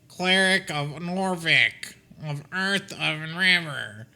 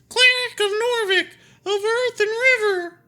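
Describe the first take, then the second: First: It is read in a plain voice. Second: It is said in a shrill voice.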